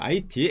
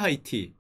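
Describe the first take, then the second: First: The word begins with a vowel, no H. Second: The word begins with an H sound. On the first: This is the French reading of the name. "H가 묵음이에요" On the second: This is the English reading of the name. "영어로 쓰면은 하이티입니다"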